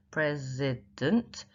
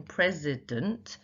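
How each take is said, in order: First: "president" very slowly, each syllable drawn out. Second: Said in the usual way. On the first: Shown as a demonstration. Teacher showing the unstressed last syllable, "president" slow and syllabified.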